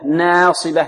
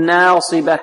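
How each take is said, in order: First: The first vowel leans toward an 'e' sound. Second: The same.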